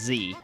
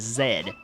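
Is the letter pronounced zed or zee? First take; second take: zee; zed. First: The letter is pronounced as zee. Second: The letter is pronounced as zed. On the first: The American name of the letter is used. The speaker calls it wrong. "rather than Z" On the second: The British name of the letter is used. The speaker calls it right. "be sure to pronounce the trigger button as Z"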